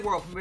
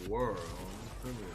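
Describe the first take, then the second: First: It is said in a plain, ordinary voice. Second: It is said in a low, sultry announcer voice. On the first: The speaker calls it wrong. "Don't just say world premiere" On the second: The speaker calls it right. "You need to have that little sexy voice go world premiere"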